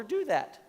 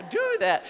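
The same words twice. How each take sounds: First: Real accidental squeak on the last word; voice going high. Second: Very high, laughing imitation of own squeak; mock squeaky high. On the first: Real, not acted. Preacher making a point to students, voice suddenly cracking high. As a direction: let the voice jump up high by accident. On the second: Shown as a demonstration. Preacher poking fun at own voice slip, squeaky high. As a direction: exaggerate the voice crack for laughs. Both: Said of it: "Did my voice just go really high?".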